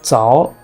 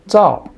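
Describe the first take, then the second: First: The pitch rises from middle to high. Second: The pitch falls sharply from high to low. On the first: "Second tone" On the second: "Fourth tone is the easiest one"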